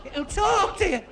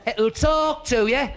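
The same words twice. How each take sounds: First: Very high-pitched, strained calling; shouting for deaf gran. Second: Slow, high and loud, every word stretched; shouting for deaf gran. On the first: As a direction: push the voice right up to get through to her. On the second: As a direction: make the hard-of-hearing listener catch it. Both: Acted. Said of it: "my gran was a bit Mutt and Jeff".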